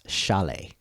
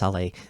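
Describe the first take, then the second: First: The name begins with a sh sound. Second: The name begins with a plain s sound. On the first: The speaker calls it right. "has a sh to it, so it's Chalet" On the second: The speaker calls it wrong. "It's not just Saleh"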